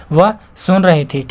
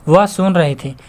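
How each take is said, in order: First: Slow read. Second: Said in the usual way. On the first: Shown as a demonstration. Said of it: "देखिए". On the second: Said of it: "ठीक है".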